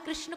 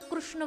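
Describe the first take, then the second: First: The name has a standard Hindi pronunciation. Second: The name has a Gujarati regional pronunciation.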